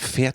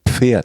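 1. Das Wort beginnt ohne P-Laut. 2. Das Wort beginnt mit einem deutlichen P-Laut. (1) "Und ich habe immer Pferd gesagt. Damals war ich noch nicht so gut" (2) "das heißt doch Pferd mit P"

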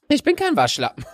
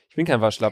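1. Die Stimme klingt verstellt und hoch. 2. Die Stimme klingt natürlich und unverändert.

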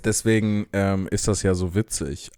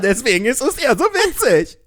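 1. Es wird in einem flachen, ernsten Ton gesagt. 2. Es wird in einem leichten, amüsierten Ton gesagt. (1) "wenn du ganz ernst sagst" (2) "ich sag's anders"

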